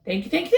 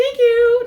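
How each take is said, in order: First: Said in the usual way. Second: Very high, loud emcee thanks; milk the crowd like a showman. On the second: Acted. Fox thanks the crowd on stage, loud showman style.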